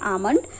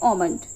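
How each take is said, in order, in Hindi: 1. यह शब्द ब्रिटिश लहजे में बोला गया है। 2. यह शब्द अमेरिकन लहजे में बोला गया है। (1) "ब्रिटिश इंग्लिश के अकॉर्डिंग तो वहां पर हम लोग इसे बोलते हैं" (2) "अमेरिकन के अकॉर्डिंग देखेंगे तो वहां पे"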